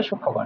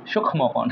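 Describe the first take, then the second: First: সূক্ষ্মকোণ with silent m, shuk-kho-kon; correct pronunciation. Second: সূক্ষ্মকোণ with the m sounded, shukh-mo-kon; spelling pronunciation. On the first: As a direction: say সূক্ষ্মকোণ as "shukkhokon", doubled kh. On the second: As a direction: pronounce the silent m in সূক্ষ্মকোণ. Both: Shown as a demonstration. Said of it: "এটা উচ্চারণ হবে সূক্ষ্মকোণ".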